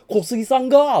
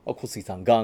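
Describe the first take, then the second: First: 小杉さんが pitched high, rising to a question; 小杉さんが high and loud as a question; uptalk. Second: Said in the usual way. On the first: Shown as a demonstration. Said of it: "小杉さんが？ はてな". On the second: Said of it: "なんですけど".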